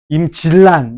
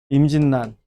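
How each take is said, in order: First: The middle consonants are both liquid l sounds. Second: The middle consonants are both nasal n sounds. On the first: The speaker calls it wrong. "유마가 일어나면 ... 이래야 된다고. 안 되지?" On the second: The speaker calls it right. "비음으로 바뀌었네"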